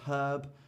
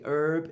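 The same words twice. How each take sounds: First: The word starts with an H sound. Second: The word starts without an H sound. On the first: This is the British way of saying it. "instead of herb" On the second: This is the American way of saying it. "In America, they say herb"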